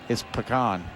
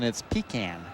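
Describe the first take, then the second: First: It is said the local southern way. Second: It is said the northern Boston way. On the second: "go up north in Boston, it's pecan"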